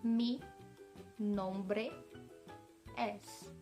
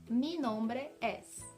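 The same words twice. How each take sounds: First: It is said slowly. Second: It is said at normal speed.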